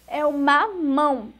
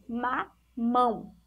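First: Said in the usual way. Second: Slow, syllables stretched apart; slow sounding out. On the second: Shown as a demonstration. Teacher asks pupils to listen closely, slow sounding out. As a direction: sound it out slowly for the kids. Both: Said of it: "escutem direitinho".

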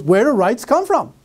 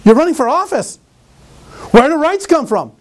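First: Said in the usual way. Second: Pressing the question, higher and louder; insistent challenge. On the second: Retold or imitated. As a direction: push the candidate to answer. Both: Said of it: "She goes".

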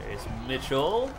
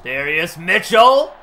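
First: Lightly voiced announcer, calm set-up of the name; Joe Buck call opener. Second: Slow, much louder drawn-out announcer call of "Darius Mitchell"; Joe Buck call. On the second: Retold or imitated. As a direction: stretch the name like a TV play-by-play man. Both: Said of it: "That's my Joe Buck impression".

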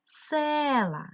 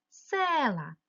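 First: «Села» with a high, clear stress on «Се»; stressed first syllable. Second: «Села» with the stress on «Се», falling tune; stressed first syllable. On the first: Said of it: "Я змінюю слово". (наголос на «Се» у слові «Села») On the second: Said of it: "стала в наголошеному складі". (наголос на перший склад у «Села») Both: Shown as a demonstration.

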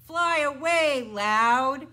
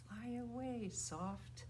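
First: High, booming call; loud. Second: Hushed, gentle call; soft. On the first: Teacher sending the bird named Loud away, loudly. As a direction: shout it out big. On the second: Teacher sending the bird named Soft away, softly. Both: Shown as a demonstration.

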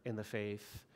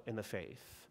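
The two takes are said the same way.

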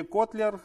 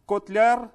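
First: Котлер stressed on the first syllable, Кот. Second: Котляр stressed on the final syllable, ляр; stress on second syllable. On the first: Host offering the other surname reading, Котлер with first-syllable stress. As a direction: put the weight at the start of Котлер. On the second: Host checking a guest's surname, Котляр with final-syllable stress. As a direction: put the weight at the end of Котляр. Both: Shown as a demonstration. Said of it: "как правильно".

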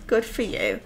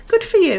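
First: Said in the usual way. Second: Good for you, much higher and louder; excited cheer. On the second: Shown as a demonstration. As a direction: cheer him on loudly.

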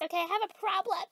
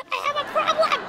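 First: Said in the usual way. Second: High, melodramatic wail; hammed-up breakdown, pitched way up; wailed confession. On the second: Confessing junk food to her friend, wailing.

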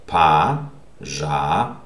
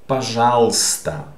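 First: "Пожалуйста" broken into slow separate syllables, first vowel as A. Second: "пожалуйста" run together as "pa-ZHAL-sta", the Y dropped; silent Y. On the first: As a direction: sound out "Пожалуйста" with pauses, starting "pa". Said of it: "So this will be pronounced A". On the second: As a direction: say "пожалуйста" as one word without the Y. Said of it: "don't pronounce this Y in this word". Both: Shown as a demonstration.

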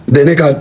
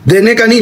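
First: Said in the usual way. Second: نہیں lifted higher at the end; stress on no. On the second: Shown as a demonstration. Joking about his phone, stressing نہیں. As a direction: push up نہیں in دینے کا نہیں. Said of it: "دینے کا نہیں، لینے کا".

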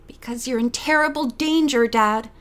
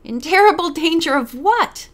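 First: Worried warning. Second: Higher, louder incredulous echo; amused disbelief. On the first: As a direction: warn a parent earnestly, with understated worry. Daughter warns her father of danger. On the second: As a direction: throw the warning back as a mocking question. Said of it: "the lawyer burst out laughing". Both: A narrator's reading.

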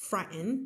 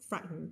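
First: Frightened with a clear T and full second vowel. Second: Frightened softly with the T dropped, fright-n. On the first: Teacher showing the careful frightened with T. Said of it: "อ่าน frightened ก็ได้". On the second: Teacher repeating American frightened without T. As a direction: swallow the T in frightened. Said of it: "จะตัด T ออกคำนี้". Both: Shown as a demonstration.

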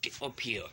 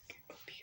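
First: Said in the usual way. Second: Breathy whispered urging. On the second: Real, not acted. Kid coaxing the mob up, whispering urgently. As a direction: hush it right down to a whisper.

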